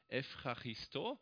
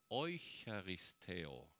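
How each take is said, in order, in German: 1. Es beginnt mit 'ev' und endet auf 'o'. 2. Es beginnt mit 'eu' und endet auf 'eo'. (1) "Evcharisto, kennt ihr vielleicht" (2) "altgriechisch ausgesprochen"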